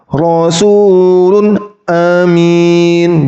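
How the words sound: There is a stop between the two words. The speaker calls it wrong. "tidak boleh berhenti seperti itu"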